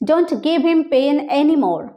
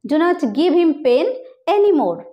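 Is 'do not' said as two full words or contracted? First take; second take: contracted; full. First: Do not is contracted into one syllable. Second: Do not is said as two full words.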